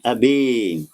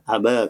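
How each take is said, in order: First: The final vowel leans strongly toward 'ee'. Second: The final vowel leans slightly toward 'ee'. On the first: "Kalau imalah kubra ... lebih membengkok" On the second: "taklil ... bunyinya antara fathah dan imalah kubra"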